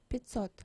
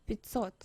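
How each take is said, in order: Both takes have the same delivery.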